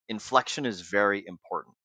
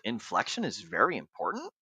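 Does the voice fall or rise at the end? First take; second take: falls; rises. First: The voice falls at the end, like a statement. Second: The voice rises at the end, like a question.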